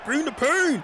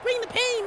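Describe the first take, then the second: First: The phrase is said in a strong, big voice. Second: The phrase is said in a little, tiny voice. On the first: "with like a strong voice" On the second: "a little tiny voice"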